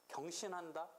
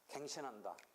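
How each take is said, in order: First: The first syllable is pronounced gyeong. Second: The first syllable is pronounced gaeng. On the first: The speaker calls it wrong. "경으로도 발음할 때 있는데" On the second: The speaker calls it right. "이때는 갱, 갱이야 갱"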